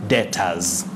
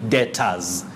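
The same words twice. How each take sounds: The two takes are said the same way.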